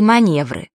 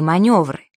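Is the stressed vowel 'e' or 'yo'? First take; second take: e; yo. First: The word is said with an 'e' vowel. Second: The word is said with a 'yo' vowel. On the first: The speaker calls it wrong. "таких слов-уродцев" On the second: The speaker calls it right. "правильно"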